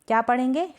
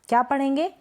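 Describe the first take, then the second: No difference in how they are said.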